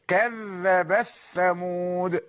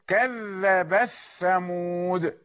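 No difference in how they are said.

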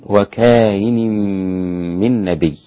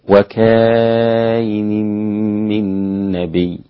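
First: The vowel before the hamza is held briefly. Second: The vowel before the hamza is held long. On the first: "القصر حركتين" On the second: "وقرأ أيضا بالمد"

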